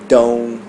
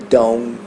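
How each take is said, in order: No difference in how they are said.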